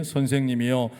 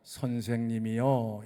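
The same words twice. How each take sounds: First: Loud reading of 선생님이여. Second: 선생님이여 said slowly and lower, ending in a fall; pointed quote. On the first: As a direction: call out 선생님이여 in full voice with the congregation. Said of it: "같이 읽어볼까요". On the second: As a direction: draw out 선생님이여 to point at the word. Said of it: "뭐라고 불렀어요?". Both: Shown as a demonstration.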